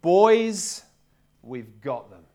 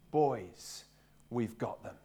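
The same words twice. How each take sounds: First: Put-on loud cry of Boys, then drops right down on we've got them; captain rallying his huddle, loud then low, no Welsh accent; rallying call to the team. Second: Softer and lower, almost to himself; captain's hushed second telling in the huddle, no Welsh accent; quiet confident repeat. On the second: Retold or imitated. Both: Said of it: "but he said".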